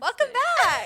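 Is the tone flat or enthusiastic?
enthusiastic. It is said with lively enthusiasm.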